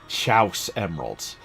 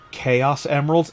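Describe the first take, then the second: First: The first word rhymes with 'house'. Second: The first word is said as 'kay-oss'.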